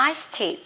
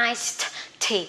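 First: Iced tea run together with a single t; linked iced tea. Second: Iced tea with both t sounds released apart; separated iced tea. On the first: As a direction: say "iced tea" quickly as one word, higher. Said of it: "đọc liền". (iced tea đọc nối liền một âm t) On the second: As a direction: say "iced tea" laboriously, t, then tea. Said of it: "Khỏi cần đọc là iced tea". (iced tea tách rời hai âm t) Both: Shown as a demonstration.

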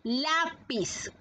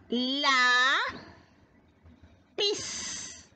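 First: Said in the usual way. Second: "La, pis" as two separate syllables, long pause between; split into syllables. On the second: Shown as a demonstration. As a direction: hold "La" long, then a short detached "pis". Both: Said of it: "Vamos a descomponer".

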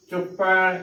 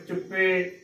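First: ਚੁੱਪੈ with an open ai ending; correct pronunciation. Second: ਚੁੱਪੇ with a close e ending; wrong pronunciation. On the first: Teacher showing the right reading, ਚੁੱਪੈ ending in ai. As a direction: end ਚੁੱਪੈ wide on ai. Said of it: "ਸਹੀ ਉਚਾਰਨ ਹੈ". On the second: Teacher showing the mistake, ਚੁੱਪੇ ending in e. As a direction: end ਚੁੱਪੇ narrow on ay. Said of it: "ਗਲਤ ਉਚਾਰਨ ਹੋਏਗਾ ਲਾਵਾਂ ਦੇ ਨਾਲ". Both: Shown as a demonstration.

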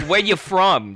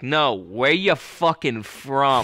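First: Higher-pitched mock challenge; challenging local. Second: Slow, drawn-out mock demand; insistent challenge. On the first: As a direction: quiz an outsider like a local. Mimics Boston locals quizzing outsiders. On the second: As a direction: press the outsider, stretching each word. Mimics Boston local pressing harder.

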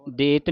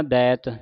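First: ਦੇਤ with closed 'ay' vowel; wrong reading. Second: ਦੈਤ with open 'ai' vowel; correct reading. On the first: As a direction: say ਦੇਤ as 'det'. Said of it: "ਦੇਤ ਨਹੀਂ ਪੜ੍ਹ ਦੇਣਾ". (ਦੇਤ, ਲਾਂ ਵਾਲਾ ਉਚਾਰਨ) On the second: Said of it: "ਦੈਤ ਦਲਾਵਾਂ ਦੇ ਨਾਲ". (ਦੈਤ, ਦਲਾਵਾਂ ਨਾਲ ਉਚਾਰਨ) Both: Shown as a demonstration.

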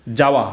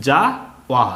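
First: "যাওয়া" blended into one whole word; syllables joined. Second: "যা", pause, "ওয়া", each syllable separate. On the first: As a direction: say "যাওয়া" without a break between syllables. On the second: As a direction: sound out "যা" and "ওয়া" apart for learners. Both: Shown as a demonstration. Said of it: "এটা উচ্চারণ কি হবে".

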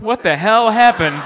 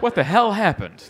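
First: Louder, laughing, higher "What the hell happened?" with a falling end; exasperated laughing yell. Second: Baffled, asking the air, a little raised; puzzled "What the hell happened?" with a falling end; incredulous. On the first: Comic future self losing it, laughing near-shout. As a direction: throw up your hands and half-shout it through a laugh. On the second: Comic imagining his future self, baffled question. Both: Pretend. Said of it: "I would be like".

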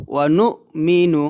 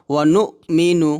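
No difference in how they are said.

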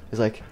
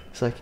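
Both takes have the same delivery.

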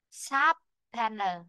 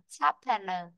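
First: "sharp panel" slowly, SHARP stressed, rest falling; stress on first syllable. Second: "sharp panel" at normal speed, SHARP stressed; stress on first syllable. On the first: Teacher shows where stress falls, stressed first syllable. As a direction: draw out "sharp panel", weight on "sharp". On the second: Teacher repeats the word whole, first-syllable stress. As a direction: run "sharp panel" together, falling after "sharp". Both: Shown as a demonstration. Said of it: "rơi vào chữ sharp".

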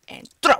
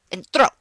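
The two takes are said the same way.

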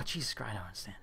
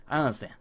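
First: Muttered under the breath, much softer; barely audible disbelief; baffled murmur. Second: Said in the usual way. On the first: Real, not acted. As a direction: mutter it to yourself, defeated. Repeats in disbelief.

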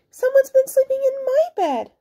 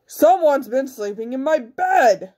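First: Very high mother bear voice. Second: Slow, emphatic big bear voice; roaring big bear. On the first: Mother bear finds bed slept in, high indignant voice. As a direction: complain in a high falsetto. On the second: Big bear finds bed slept in, slow roar. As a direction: growl it slowly as the biggest bear. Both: A narrator's reading. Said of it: "All this roaring and growling".

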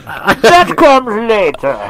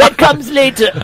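First: Very slow, drawn-out villain voice, pitched up; Bane. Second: Much higher, playful delivery; high-pitched line. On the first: Teasing the others as a masked villain, slow Bane voice. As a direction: stretch each word like a masked villain. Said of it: "That's Bane". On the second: Teasing the others about what comes next, high-pitched. Sets up a Bane quote. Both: Acted.

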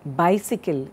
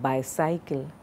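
First: BICYCLE as BY-sik-ul; short i in the middle of Bicycle; correct bicycle. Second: BICYCLE as by-SIGH-kul, softer; wrong bicycle. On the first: Teacher modelling a mispronounced word, Bicycle said BY-sik-ul. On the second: Teacher showing the common mistake, bicycle said softly as by-cycle. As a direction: rhyme the end of bicycle with cycle. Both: Shown as a demonstration. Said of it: "it's not bicycle".

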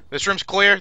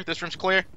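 First: Shouting. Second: Said in the usual way. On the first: Real, not acted. Calling room clear.

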